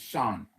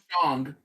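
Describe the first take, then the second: First: The name ends without a g sound. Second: The name ends with a g sound. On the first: The speaker calls it right. "It's Shan" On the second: The speaker calls it wrong. "It's not Shang. There's no G in Mandarin"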